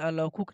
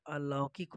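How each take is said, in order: First: अलौकुक said with u in the third syllable, alaukuk; wrong pronunciation. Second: अलौकिक said with i, alaukik; correct pronunciation. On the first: Teacher showing students the wrong spelling sound, अलौकुक with -kuk. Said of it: "अलौकुक नहीं होता है". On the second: Teacher giving students the correct form, अलौकिक with -kik. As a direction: say the right form अलौकिक clearly, ending in -kik. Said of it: "अलौकिक होता है". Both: Shown as a demonstration.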